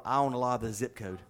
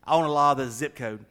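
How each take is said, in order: First: Said in the usual way. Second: Loud, insistent retold line; louder, emphatic clarification; emphatic repeat.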